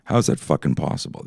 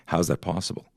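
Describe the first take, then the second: First: "fucking" hit hard, words pushed out on breath; emphatic repeat. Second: Said in the usual way. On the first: Shown as a demonstration. Repeating the question to audience with stronger emphasis. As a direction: push "fucking" in disbelief.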